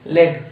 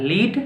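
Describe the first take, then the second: First: लेड with a short e, led. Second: लीड with a long ee, leed. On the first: Teacher showing students the pronunciation, लेड as led. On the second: Teacher showing students the pronunciation, लीड as leed. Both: Shown as a demonstration. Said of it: "pronunciation अलग होता है".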